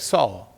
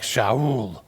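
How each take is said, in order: First: The name begins with an 's' sound. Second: The name begins with a 'sh' sound. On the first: This is how it is said in English. "but we would say Saul" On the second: This is how it was said in Hebrew.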